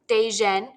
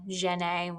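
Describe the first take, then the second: First: The name begins with a D sound. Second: The name begins without a D sound.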